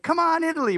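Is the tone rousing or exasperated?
rousing. It sounds like a rousing, enthusiastic rallying cry.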